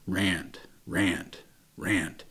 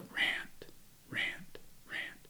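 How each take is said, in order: First: It is said louder, at medium volume. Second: It is said very quietly, almost inaudibly.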